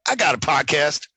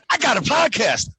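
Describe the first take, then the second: First: It sounds casual and smug. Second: It sounds breathless and excited. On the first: The speaker is bragging to someone. "Or you could say it like, hey, you know what, man?" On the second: The speaker can hardly believe the news. "you can say it like, oh my God, oh my God, I just got a"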